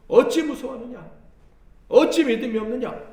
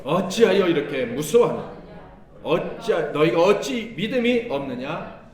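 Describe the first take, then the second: First: Higher, louder rebuke with 어찌 punched; sharp rebuke. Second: Loud, stern rebuke to the disciples. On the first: Retold or imitated. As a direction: scold hard, hitting 어찌. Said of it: "주님이 뭐라고 책망하셨어요?". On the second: Acted. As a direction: scold them firmly, voice raised. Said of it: "예수께서 … 이르시되".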